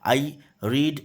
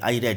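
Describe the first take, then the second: First: Read has a long ee vowel. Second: Read has a short e vowel. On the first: The speaker calls it wrong. "हाँ sorry" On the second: The speaker calls it right. "यहाँ पर रीड का जो उच्चारण होगा वो रेड होगा"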